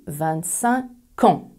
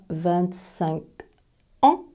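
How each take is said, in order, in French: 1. Le k de cinq se lie à ans. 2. Cinq et ans se prononcent séparément. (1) "on dit" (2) "on ne dit pas"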